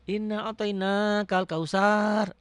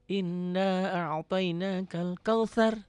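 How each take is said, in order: First: The last word has a plain 's' sound. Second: The last word has a soft 'th' sound. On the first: The speaker calls it wrong. "Jangan ada yang baca" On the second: The speaker calls it right. "bacaannya harus benar dulu"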